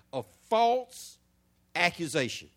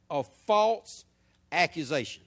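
First: "false" drawn out and set apart; stress on false. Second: "false" held long before "accusation"; stress on false again. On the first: Preacher hammering "false accusation" for the congregation to hear. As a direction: linger on "false" before "accusation". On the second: Preacher repeating "false accusation" so the point sinks in. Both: Shown as a demonstration. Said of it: "hear this good".

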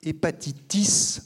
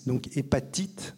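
First: Hépatitis said as the English word, slowly; Hépatitis pronounced the English way, drawn out; English term. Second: Said in the usual way. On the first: Shown as a demonstration. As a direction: give Hépatitis its English sounds, slow and deliberate. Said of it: "l'abréviation d'un terme anglais".

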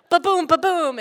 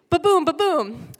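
First: Loud imitated thuds, higher pitch; bumping sound. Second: Loud imitated thuds again; bumping sound. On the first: Kid bouncing over bumps, imitating thuds loudly. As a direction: mimic each bump of the street. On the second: Kid still being dragged, imitating thuds loudly. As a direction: keep the bump sound going. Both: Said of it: "feel like".

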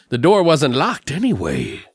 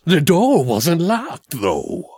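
First: Imitating the killer. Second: Slow, higher, lightly voiced killer; imitating the killer's deadpan. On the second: Mocking how the killer talks, slow and deadpan. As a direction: drag it out like a flat movie killer. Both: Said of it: "this is how he talks when I say this".

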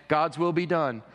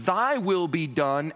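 First: Said in the usual way. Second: Sincere surrender. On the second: Shown as a demonstration. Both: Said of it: "notice the difference between".

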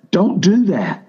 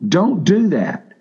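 First: High, punchy stress on "do" in "Don't do that"; urgent preacher's warning with "do" hit hard; emphatic warning. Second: Slow, deliberate "Don't do that" with weight on "do"; drawn-out second warning, still high and pressing; slow emphatic repeat. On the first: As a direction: snap it out as a firm command. Preacher warning against spiritualizing. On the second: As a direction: lay each word down slowly for emphasis. Preacher repeats warning, slower. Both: Real, not acted.

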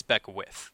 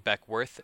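First: Beckwith, ending like "with"; corrected pronunciation. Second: Beckworth, ending like "worth"; mistaken pronunciation. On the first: Storyteller fixing the suspect's name, Beckwith with "with" ending. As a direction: say Beckwith with no r, last syllable "with". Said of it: "it's Beckwith". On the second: Correcting an earlier name slip, Beckworth with "worth" ending. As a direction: say Beckworth with an r in the last syllable. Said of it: "I've been saying Beckworth". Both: Shown as a demonstration.

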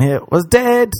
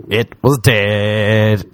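First: High-pitched comic dismay; exclaimed letdown. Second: Very slow, stretched-out repeat; slow mock-dismayed emphasis, falling at the end; drawn-out letdown. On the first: Retold or imitated. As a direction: land the letdown high, falling at the end. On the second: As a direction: drag each word out for comic effect.

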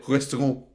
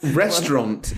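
First: RESTAURANT in a mock French accent. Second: Said in the usual way. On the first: Shown as a demonstration. Son mocking a French pronunciation, French accent. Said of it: "said restaurant in a French accent". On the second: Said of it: "You don't say restaurant".

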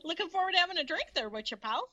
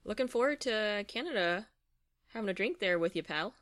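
First: High, fast mock Canadian accent; hammed-up Canadian accent, quick and high; fake Canadian accent. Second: Said in the usual way. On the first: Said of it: "such good fake, uh, Canadian accents".

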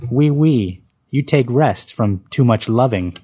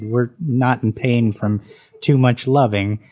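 First: Put-on thick French accent. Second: Said in the usual way. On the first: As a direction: play the French waitress teasing in a thick French accent. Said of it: "responding in a thick French accent". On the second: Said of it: "I protested".

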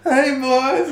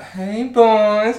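First: Very high, loud faraway hail; hammed-up distant come-on; distant beach woman. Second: High, loud, drawn-out greeting; hammed-up high singsong hail; beach woman's come-on. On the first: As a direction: imitate her calling from down the beach. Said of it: "hear her in the distance". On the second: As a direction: imitate her calling over the lads. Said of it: "And she's like".

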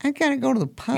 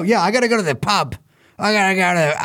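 First: Put-on second go at an Irish accent, higher and fast; hammed-up Irish accent, quick and high. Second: A weak attempt at an Irish accent, quick; bad Irish accent. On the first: Host retrying the Irish accent after being told it's horrible. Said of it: "No, horrible". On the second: Host mocking pub-bound revelers in a shaky Irish accent. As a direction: fumble toward an Irish accent. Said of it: "how do I do an Irish accent?".

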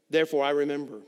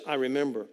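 First: Said in the usual way. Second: "I" pressed, "remember" falling away; stress on I. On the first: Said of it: "Notice he says, "I remember". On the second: Shown as a demonstration. The preacher points out who remembers, leaning on "I". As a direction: lean on "I" in "I remember". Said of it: "Notice he says".

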